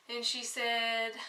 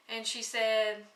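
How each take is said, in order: Both takes have the same delivery.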